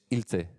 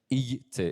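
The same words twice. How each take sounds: First: The l is a plain l sound. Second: The l is palatal, like Spanish ll. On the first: The speaker calls it right. "es ilce" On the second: The speaker calls it wrong. "no es ilce"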